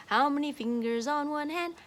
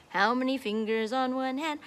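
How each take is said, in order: Both takes have the same delivery.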